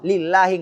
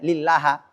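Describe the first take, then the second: First: The word ends with an i vowel. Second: The word ends with an a vowel. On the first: The speaker calls it right. "kata Allah harus kasrah" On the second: The speaker calls it wrong. "nggak boleh"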